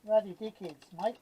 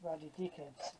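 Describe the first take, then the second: First: Ruddy dickheads said out loud and firm; louder declaration. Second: Ruddy dickheads said low and soft under the breath; muttered grumble. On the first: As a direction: announce Ruddy dickheads to the room. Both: Real, not acted. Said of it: "that's what I say".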